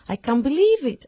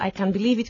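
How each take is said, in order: First: It is said with a wide, lively pitch range. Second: It is said with a flat, narrow pitch range.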